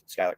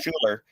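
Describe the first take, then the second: First: The first syllable sounds like 'sky'. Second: The first syllable sounds like 'school'. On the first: The speaker calls it right. "that is my name. Yes, Skylar" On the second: The speaker calls it wrong. "Schuler is usually how people say that"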